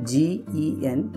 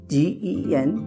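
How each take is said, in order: No difference in how they are said.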